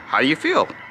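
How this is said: The question is said with a high pitch. "or you say it with a high pitch"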